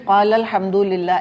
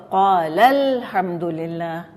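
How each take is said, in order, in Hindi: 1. पहले लफ़्ज़ पर आवाज़ समान रहती है। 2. पहले लफ़्ज़ पर आवाज़ एक नॉच ऊपर उठती है। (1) "ऐसे नहीं कहें" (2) "ये तरीका होना चाहिए दुरुस्त"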